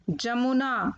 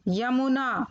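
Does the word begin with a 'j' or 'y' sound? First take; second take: j; y. First: The word begins with a 'j' sound. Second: The word begins with a 'y' sound. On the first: The speaker calls it wrong. "पहले number पर अशुद्ध शब्द" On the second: The speaker calls it right. "फिर उनका शुद्ध उच्चारण"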